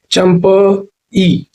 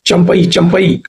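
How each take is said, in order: First: Very slow Champai, champa, then a separate ee; syllable by syllable. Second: Said in the usual way. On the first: Shown as a demonstration. Teacher drilling the adjective, Champai slowly broken apart. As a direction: hold and split Champai before the final ई.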